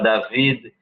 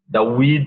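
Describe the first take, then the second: First: The middle consonant is a v sound. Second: The middle consonant is a w sound. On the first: "ao invés de falar David" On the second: "eles falam hebraico de um jeito muito diferente"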